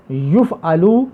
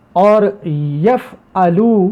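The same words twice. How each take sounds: First: یفعلو said as yuf-a-lu, u then a; passive yuf'alu. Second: یفعلو drawn out slowly as yaf-a-lu with an open first vowel; slow yaf'alu. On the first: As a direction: round the first vowel: yu in یفعلو. (یفعلو کو یُفعَلُو، پیش کے ساتھ) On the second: (یفعلو کو آہستہ، یَفعَلُو کی طرح) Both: Shown as a demonstration. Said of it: "او آ کا آواز نکل رہی ہے".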